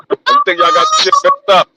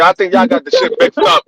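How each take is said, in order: First: Much higher, squeaky repeat; high mock voice. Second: Said in the usual way. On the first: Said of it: "repeated in a high voice". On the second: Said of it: "repeated for effect".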